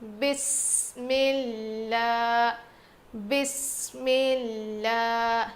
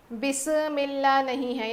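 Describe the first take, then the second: First: بسم اللہ smooth with no bounce on the م; بسم اللہ, clean and even; correct bismillah. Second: بسم اللہ with an added bounce on the م, the wrong way; wrong bismillah. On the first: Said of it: "ایسے نہیں". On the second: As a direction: show بسم اللہ with a double sound. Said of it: "یہاں خلخلہ نہیں کریں گے". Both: Shown as a demonstration.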